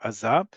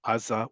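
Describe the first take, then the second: First: "Aza" stressed on its final za; stress on last syllable. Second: "Aza" stressed on its opening A; stress on first syllable. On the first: Teacher giving the alternative pronunciation, last-syllable stress on "Aza". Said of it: "that can change depending on situations". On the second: Teacher giving an example of a borrowed word, first-syllable stress on "Aza". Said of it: "If the word is not Hebrew in origin". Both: Shown as a demonstration.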